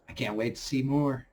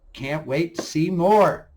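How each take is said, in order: First: Said in the usual way. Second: "more" drawn out and lifted; stress on more. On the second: Shown as a demonstration. Vlogger eagerly repeating the wish, stretching "more". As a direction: lean on "more" with slower, louder emphasis.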